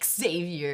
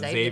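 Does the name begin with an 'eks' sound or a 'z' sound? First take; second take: eks; z. First: The name begins with an 'eks' sound. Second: The name begins with a 'z' sound. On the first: This is how Americans say the name. The speaker calls it wrong. "I don't know why Americans are like Xavier" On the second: This is how the name is properly said. The speaker calls it right. "it's just Xavier, by the way. That's how you say his name"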